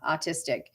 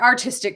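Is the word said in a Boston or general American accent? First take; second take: Boston; general American. First: The word is said with the r dropped. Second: The word is said with a clear r sound.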